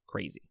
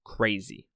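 First: Quiet echo. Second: Said in the usual way. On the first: Real, not acted. Reviewer softly echoing himself, quiet. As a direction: drop it to a soft repeat. Repeats the word, second quieter.

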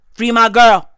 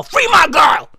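First: Loud demand without raising the pitch; firm mock demand. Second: Higher-pitched shouted demand; mock protest shout. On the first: Same demand, in lower pitch. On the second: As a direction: cry it out high in mock outrage.

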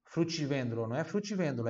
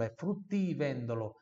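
First: Fruttivendolo with the T made tch, the Brazilian way; wrong Brazilian T. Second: Fruttivendolo with a clean T, ti not tchi; correct pure T. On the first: Teacher mimicking the student mistake, tch. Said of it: "Não vai me falar frutti". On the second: Teacher giving the right version, pure T. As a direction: say fruttivendolo with a crisp T. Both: Shown as a demonstration.

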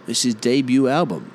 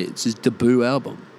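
First: Debut said "DAY-byoo"; proper pronunciation. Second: Debut said "duh-BOO"; Aussie "d'boo" for debut; Aussie mispronunciation. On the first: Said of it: "They're talking about, like, someone's debut". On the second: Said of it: "They say it's his debut album". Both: Shown as a demonstration.

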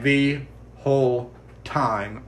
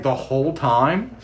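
First: "The whole time." slow and falling, a dry flat answer; flat confirmation. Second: "The whole time?" slow, rising on "time" as a stunned question; Robin asking, rising. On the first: Lily confirms the mom heard everything, in a slow flat statement. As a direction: settle "The whole time." down at the end. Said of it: "then she's like". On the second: Robin asks, disbelieving, whether the mom heard, with a slow rising question. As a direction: ask "The whole time?" with the tune climbing at the end. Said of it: "She's like". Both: Retold or imitated.

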